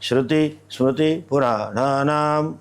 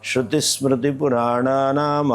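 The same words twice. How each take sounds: First: The words are said separately with breaks between them. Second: The words run together as one unbroken word. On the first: The speaker calls it wrong. "ये आप बोलते हैं" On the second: The speaker calls it right. "वो तो एक ही शब्द है। ... ऐसे बोलना है।"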